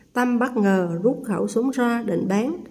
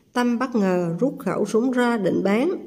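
The two takes are said the same way.

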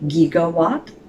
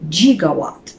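First: It uses the common modern pronunciation. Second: It uses an old-fashioned, unusual pronunciation. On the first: "We say gigawatt" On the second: "Doc says gigawatt. He mispronounces it"

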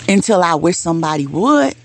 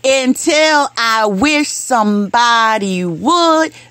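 First: The line is spoken at normal volume. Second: The line is spoken at louder volume.

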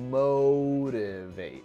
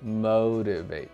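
First: The O vowel is strongly rounded. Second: The O vowel is less rounded. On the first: "在美式英语当中是O 特别圆motivate" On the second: "英式英语呢是怎么说的？motivate 就没有那么圆"

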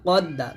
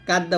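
First: The first consonant is a deep, heavy q. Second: The first consonant is a light, front k. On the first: The speaker calls it right. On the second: The speaker calls it wrong.

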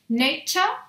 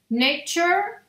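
First: The final vowel is more fully pronounced. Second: The ending is a reduced 'chur' sound. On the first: "en inglés británico sonaría como un poquito más pronunciada la A" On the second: "en inglés un poquito más americano terminarían como en chur"

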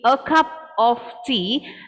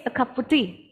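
First: The phrase is spoken slowly, word by word. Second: The phrase is spoken at a natural, connected pace. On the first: "if it says said slowly" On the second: "if we go at a natural place"

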